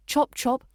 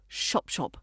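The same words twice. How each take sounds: First: "Chop chop" with two crisp, identical ch sounds. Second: "shop shop", sh in place of both ch's; ch softened to sh. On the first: Teacher contrasting right with wrong, "Chop chop" with crisp ch. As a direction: hit both ch's in "Chop chop" cleanly, never sh. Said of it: "Keep both those ch sounds crisp and identical". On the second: Teacher showing the mistake, "shop shop" with sh for ch. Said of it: "not shop shop". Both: Shown as a demonstration.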